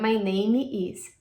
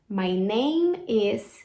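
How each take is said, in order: First: A vowel sound is added after the M of name. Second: The M of name leads straight into is. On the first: The speaker calls it wrong. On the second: The speaker calls it right.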